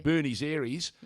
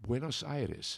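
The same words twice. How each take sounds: First: "Buenos Aires" as BYOO-neez AIR-eez; drawn-out botched "Buenos Aires", both words ending in -eez; mangled Buenos Aires. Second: "Buenos Aires" as BWEN-os EYE-res; slow, careful "Buenos Aires" with Spanish vowels; correct Buenos Aires. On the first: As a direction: slowly mispronounce "Buenos Aires" in broad English vowels. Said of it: "abused capital in the world". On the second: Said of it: "No, no, mate, it's". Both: Shown as a demonstration.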